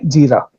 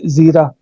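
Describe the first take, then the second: First: The word begins with a j sound. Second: The word begins with a z sound. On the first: A speaker whose mother tongue lacks the z sound says it. "इसको पढ़ती हैं जीरा" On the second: This is how the written word actually reads. "है क्या बेटा ये? ज़ीरा।"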